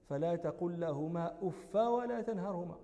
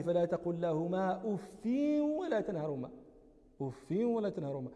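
First: أف read "uffa", short final a; fatha on أف. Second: أف read "uffin", the n merged into the following w; kasra with nunation. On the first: Teacher showing students the Ibn Kathir reading, "uffa" for أف with fatha. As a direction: say أف as "uffa", without nunation. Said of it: "بفتح". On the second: Teacher showing Nafi and Hafs's reading, "uffin" for أف with kasra and tanween. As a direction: say أف as "uffin", nasal glide into ولا. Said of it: "بالكسر وبالتنوين". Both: Shown as a demonstration.

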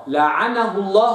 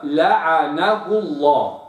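First: لعنه الله with the wrong vowels, marked as the error; wrong reading. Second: لعنه الله read slowly and precisely with the right vowels; correct reading. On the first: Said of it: "لعنه الله خطأ". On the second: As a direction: model لعنه الله carefully for the student. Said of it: "الصواب". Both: Shown as a demonstration.

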